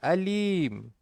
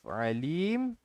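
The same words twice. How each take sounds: First: It begins with a plain vowel. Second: It begins with a tight throat sound. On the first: The speaker calls it wrong. "kita ni tertukar ain dengan alif" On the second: The speaker calls it right. "Instead of alim"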